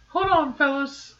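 It is said in a high, squeaky cartoon voice. "that's my Mickey Mouse voice"

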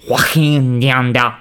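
The name is said with German pronunciation.

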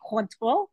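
It is said with a strongly French pronunciation. "we could go really French, we say Cointreau"

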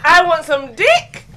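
It is said as a question.

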